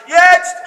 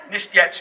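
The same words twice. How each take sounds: First: Higher, sharp demo call; shouted cue. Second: Said in the usual way. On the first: Shown as a demonstration. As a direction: call out the signal word. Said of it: "schreie ich, jetzt". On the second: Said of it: "später".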